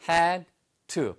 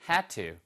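First: It is said slowly and fully. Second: It is said fast and reduced.

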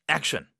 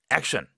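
Both takes have the same delivery.

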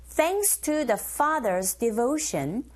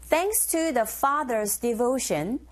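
The two takes are said the same way.

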